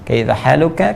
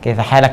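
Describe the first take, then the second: First: The second word is 'haluka', with a final vowel. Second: The second word is 'halak', with a final stop. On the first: The correct classical way of asking. "kalau fasihnya gunakan dhamma" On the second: A casual colloquial way of asking. "Ini yang slang"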